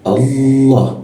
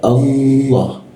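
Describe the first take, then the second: No difference in how they are said.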